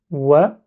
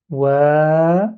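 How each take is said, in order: First: "Wa" short, cut after one beat; "Wa" as a quick "wè"; short vowel. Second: "wa" with a long held vowel; "wa" drawn out like "wèèè". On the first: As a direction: say "Wa" briefly, vowel not held. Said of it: "waw avec fatha, ça donne wa". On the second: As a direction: stretch "wa" out for several beats. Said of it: "c'est comme si je prolonge". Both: Shown as a demonstration.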